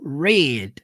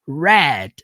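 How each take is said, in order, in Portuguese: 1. A palavra é pronunciada na forma do presente. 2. A palavra é pronunciada na forma do passado. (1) "Quando você quer utilizar esse verbo no presente, ele é pronunciado read" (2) "Quando você quer usar ele no passado, ele é pronunciado read"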